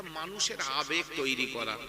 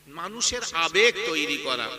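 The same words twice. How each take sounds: First: Said in the usual way. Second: আবেগ punched louder; stress on আবেগ. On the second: Real, not acted. Preacher explaining why verse is recited, stress on আবেগ. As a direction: repeat it firmly, leaning hard on আবেগ. Repeats the phrase for emphasis.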